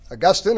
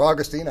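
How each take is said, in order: First: Augustine as uh-GUS-tin; second-syllable stress. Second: Put-on Augustine as AW-gus-teen; first-syllable stress. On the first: Preacher offering one way to pronounce the name, Augustine as uh-GUS-tin. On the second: Preacher offering the other way to pronounce the name, Augustine as AW-gus-teen. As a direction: stress the start of Augustine, ending in long teen. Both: Shown as a demonstration. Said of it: "how to pronounce his name".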